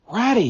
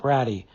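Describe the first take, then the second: First: High, loud excited cry of a name; calling out to a friend in sudden joy; joyful call. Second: Low, falling plea of a name; begging a friend to stop, heartsore; anguished plea. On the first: Mole calls ahead to Rat, joyful and excited. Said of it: "he called, full of joyful excitement". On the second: Mole pleads with Rat, in anguish. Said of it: "pleaded the poor Mole, in anguish of heart". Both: A narrator's reading.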